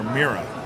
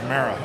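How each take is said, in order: First: The first vowel sounds like 'ee'. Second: The first vowel sounds like 'ah'. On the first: The speaker calls it wrong. "I kept calling her Mira" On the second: The speaker calls it right. "actually, it's Mara"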